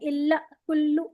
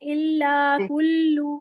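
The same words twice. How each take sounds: First: The phrase is said with abrupt jerky pushes. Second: The phrase is said in a relaxed, even flow. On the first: The speaker calls it wrong. "ऐसे झटका दे दे के नहीं, इल्ला कुल्लू ऐसे नहीं" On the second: The speaker calls it right. "Relax होके पढ़े"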